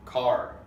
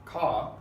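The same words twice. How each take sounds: First: CAR with the final R fully sounded; American-style "car", strong R. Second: CA with the R dropped; British-style "Ca", no R at all; British non-rhotic R. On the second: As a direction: say car as "Ca", ending on the open vowel. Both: Shown as a demonstration.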